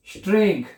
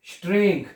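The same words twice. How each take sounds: The two takes are said the same way.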